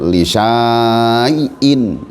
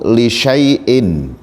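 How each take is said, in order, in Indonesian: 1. Vokal setelah bunyi sh panjang. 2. Vokal setelah bunyi sh pendek. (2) "dibaca pendek, tidak dibaca panjang"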